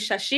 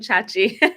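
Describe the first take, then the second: First: The name is pronounced the French way. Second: The name is pronounced the English way. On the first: "If it was in French, it would be Shashi" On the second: "If it was in English, I presume Chachi"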